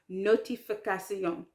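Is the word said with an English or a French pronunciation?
French. It is said with a French pronunciation. The speaker calls it right. "it's notification"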